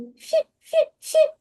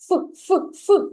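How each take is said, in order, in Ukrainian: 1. Звук f м'який і пом'якшений. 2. Звук f твердий, не пом'якшений.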